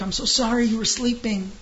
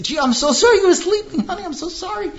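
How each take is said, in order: First: Higher, gushing apology as the wife; wife's sugary apology to her sleeping husband; all apologetic. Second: Much higher, louder sing-song mock of her sorry; husband mocking his wife's sugary apology. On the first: Retold or imitated. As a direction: overdo the sorry, eager to please. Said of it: "she's all apologetic". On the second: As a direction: parrot her fake apology with scorn. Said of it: "and then say".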